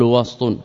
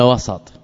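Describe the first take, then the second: First: وسط as "wast", ending "wastun"; وسط with a vowelless seen; silent middle consonant. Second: وسط as "wasat", with an a after the s; وسط with a vowelled seen; open middle vowel. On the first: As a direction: say وسط with s running straight into t, then "un". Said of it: "وسط بالسكون". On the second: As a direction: say وسط in two syllables, wa-sat. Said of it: "في الشيء المتصل قلنا". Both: Shown as a demonstration.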